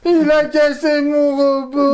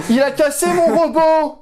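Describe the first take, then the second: First: High, slow, loud mock whine; whining childish wail. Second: Mock whining. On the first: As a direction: wail it like a sulking kid. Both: Mock wailing over lost robot.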